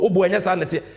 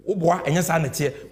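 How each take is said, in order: First: The same words again, pushed out louder; louder protest. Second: Said in the usual way. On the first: Real, not acted.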